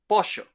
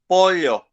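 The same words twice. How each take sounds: First: It is said in a Uruguayan accent. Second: It is said in an older Paraguayan accent. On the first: "this lady is from Uruguay, and she says pollo" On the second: "the one who is Paraguayan and he, who is sixty years old, he pronounces this word pollo"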